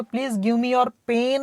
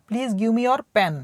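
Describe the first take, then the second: First: "pain" said with a long ay sound, slowly; wrong vowel pain. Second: "pen" said with a short clipped e, slowly; correct short pen. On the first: Teacher shows students the wrong request: slow "pain". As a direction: deliberately say "pain" for "pen", slow and drawn out. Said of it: "नहीं बोलना है". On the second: Teacher shows students the right request: slow short "pen". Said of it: "बोलते हैं ना, पेन". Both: Shown as a demonstration.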